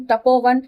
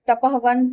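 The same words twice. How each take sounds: First: तपोवन with a long o replacing the h; तपोवन after sandhi, o in the middle; joined sandhi form. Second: तपहवन with a breathy h after the a, before sandhi; तपहवन voiced with the visarga h kept; visarga spelled out. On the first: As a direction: say तपोवन as ta-po-van, no h. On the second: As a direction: say तपहवन as ta-pah-van, h sounding. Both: Shown as a demonstration. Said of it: "आप ध्यान देते जाओ कि इसमें जो इसके विसर्ग के बाद".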